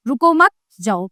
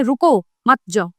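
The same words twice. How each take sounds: First: "रुको मत" run together, pause, then "जाओ"; pause after मत. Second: "रुको" then a short pause, then "मत जाओ" together; pause after रुको. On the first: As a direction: hold the break until after "मत", then a separate "जाओ". ("रुको मत" साथ में, फिर विराम, फिर "जाओ") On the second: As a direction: break right after "रुको", keep "मत जाओ" as one phrase. ("रुको" के बाद विराम, फिर "मत जाओ" साथ में) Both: Shown as a demonstration. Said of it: "इन दोनों वाक्यों के दो मतलब".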